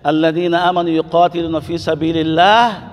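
There is a stop after 'fi sabilillah'. The believers fight in God's way; the disbelievers fight for false gods. The speaker calls it right. "تقف هنا"

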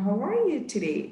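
It is said in an exaggerated, dramatic way. The speaker calls it wrong. "It's not like a dramatical one"

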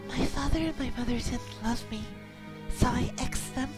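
It is read in a put-on high girl voice.

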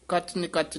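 The n sound opens the second word. The speaker calls it wrong. "ਕੱਚ ਨਿਕੱਚ ਨਹੀਂ ਕਹਿਣਾ ਹੈ"

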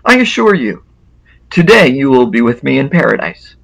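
The pause comes before the word today.

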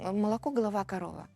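Russian pronunciation, with the mouth barely opening. The speaker calls it wrong. "Про московицьку це отак"

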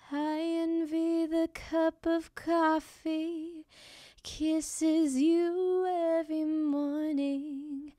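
The voice is breathy and smooth.

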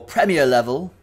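Premier is said with a British pronunciation.

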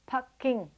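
The name is said with Cantonese pronunciation. "Beijing is pronounced Peking in Cantonese"

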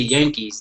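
The word starts with a y sound. "they don't say Yankees"

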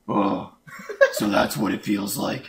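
It is said in a gruff Batman voice.

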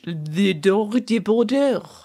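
It is pronounced with a French accent. "if you were trying to do French"

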